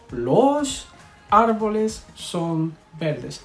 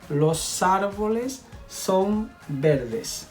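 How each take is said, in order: First: The words are separated with a break between them. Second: The final S runs smoothly into the next vowel. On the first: The speaker calls it wrong. "we never say" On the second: The speaker calls it right. "You see how I link the S with the A here"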